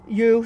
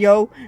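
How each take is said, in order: First: The name is said with a long 'oo' vowel. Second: The name is said with an 'oh' vowel. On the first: This is the original name from before the translation. The speaker calls it wrong. "you sorry" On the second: This is the name used in the English translation. The speaker calls it right. "I'm used to saying you instead of yo"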